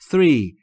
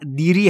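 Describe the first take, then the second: First: The word begins with a soft th sound. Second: The word begins with a hard d sound. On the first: The speaker calls it right. "دقت بکنید three three" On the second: The speaker calls it wrong. "دیری هم نیست"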